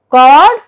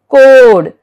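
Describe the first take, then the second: First: "cord" said as cod, short o, rising and loud; short vowel. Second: "code" with long O, loud and falling; long vowel. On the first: Teacher repeats the contrast for learners, "cord" as short-vowel cod. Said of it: "See the difference?". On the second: Teacher repeats silent E's effect, "code" with long O. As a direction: land "code" firmly on a long O. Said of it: "letter E affects the pronunciation". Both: Shown as a demonstration.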